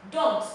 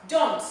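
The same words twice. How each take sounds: The two takes are said the same way.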